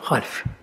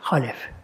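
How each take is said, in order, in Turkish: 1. L ile F arasında hiçbir ünlü duyulmaz. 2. L ile F arasında bir ünlü duyulur. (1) "Eğer kötü ise, halef. Lam da cezim olur" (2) "lam üstünü okunur. Böyle"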